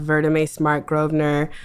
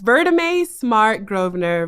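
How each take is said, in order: First: The name is said at normal speed. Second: The name is said slowly.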